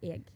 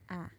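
First: It is said as 'eg' with an audible g. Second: It is said as one open vowel, 'æ'. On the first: "Britain-wise, it's E-G. So you're just missing the J on the front. But now suddenly the G is audible" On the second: "when you start going north, the most common one is A"

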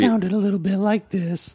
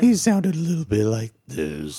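First: It is said in a higher Pooh voice. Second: It is said in a deeper Pooh voice.

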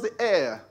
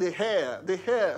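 First: The word starts with a vowel sound. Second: The word starts with an h sound. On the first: The speaker calls it right. "He said it's pronounced the heir" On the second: The speaker calls it wrong. "you pronounced it wrongly. You kept saying the heir"

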